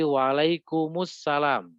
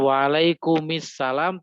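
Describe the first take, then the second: First: The final m is linked with a u vowel. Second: The final m is linked with an i vowel. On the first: The speaker calls it right. "caranya di doma" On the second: The speaker calls it wrong. "bukan di kasroh"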